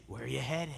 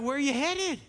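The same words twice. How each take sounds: First: Low, soft wolf voice. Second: Said in the usual way. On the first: Acted. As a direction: drop low and quiet as the story's wolf. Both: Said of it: "the wolf comes up and is like".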